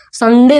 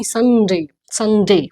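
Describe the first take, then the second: First: "संडे" as sun-DE, hard d, short e; wrong pronunciation. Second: "संडे" as SUN-day, lighter d, gliding end; model pronunciation. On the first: Teacher showing the mistake, "संडे" as sun-de. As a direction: say "संडे" with a heavy Hindi d. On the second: Teacher correcting the class, "संडे" as SUN-day. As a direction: say "संडे" English-style, falling. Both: Shown as a demonstration. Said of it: "संडे नहीं".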